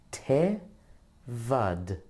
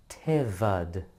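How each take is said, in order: First: Te and vad said apart with a pause, Te pitched up; split into syllables. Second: Said in the usual way. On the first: Shown as a demonstration. Teacher sounding out Tevad one syllable at a time. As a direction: sound out each half separately. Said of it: "The first syllable is te".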